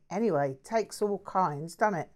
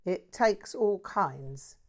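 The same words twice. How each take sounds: First: Offhand Cockney shrug, raised and loud; lightly voiced breezy Cockney mate. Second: Slow, puzzled echo of the phrase; slowly drawn-out bewildered reply; baffled. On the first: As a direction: toss it off like a cheerful London bloke. Jack's casual remark. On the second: Acted. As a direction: repeat it, not sure what he means. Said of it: "in a somewhat baffled tone".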